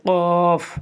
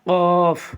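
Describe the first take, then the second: The two takes are said the same way.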